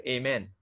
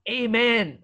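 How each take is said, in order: First: Low, soft, throwaway Amen; not bold. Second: Raised, confident Amen; bold amen. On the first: Preacher showing a needless prayer ending, half-hearted. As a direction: drop the Amen quietly, without conviction. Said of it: "If your prayer is not bold". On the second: Believer coming before God, bold and confident. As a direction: say Amen boldly, pitched up. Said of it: "able to end so boldly". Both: Shown as a demonstration.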